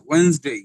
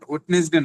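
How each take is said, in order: First: Two syllables, with the first d silent. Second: Three syllables, with the first d sounded. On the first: The speaker calls it right. "Sound হবে ওয়েন্স।" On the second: The speaker calls it wrong. "Not ওয়েডনেসডে না"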